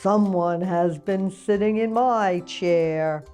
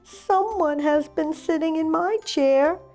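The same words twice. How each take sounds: First: It is said in a great big voice. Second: It is said in a wee little voice. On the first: "said Papa Bear in his great big voice" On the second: "cried Baby Bear in his wee little voice"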